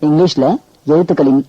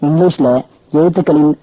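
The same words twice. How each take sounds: Both takes have the same delivery.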